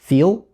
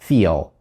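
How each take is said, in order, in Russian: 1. Оно заканчивается на простой звук L. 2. Оно заканчивается на короткий uh после L. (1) "Сейчас произнесу без него" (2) "Сейчас произнесу с ним"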